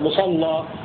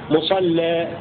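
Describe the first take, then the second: First: The L is heavy and the final vowel open. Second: The L is light and the final vowel reduced. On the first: "فإذا غلظنا نفتح الألف" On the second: "وإذا رققنا اللام نقلل الألف المقصورة"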